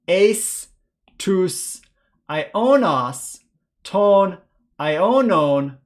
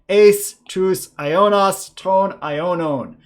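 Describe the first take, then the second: First: The phrase is read at a slow pace. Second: The phrase is read at a faster pace. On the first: "once a little bit slowly" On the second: "this time a little bit faster"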